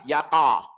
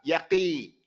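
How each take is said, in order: First: The q is followed by an a vowel. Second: The q is followed by an i vowel. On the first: "not separate to a fatha" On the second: "or separate to a kasra"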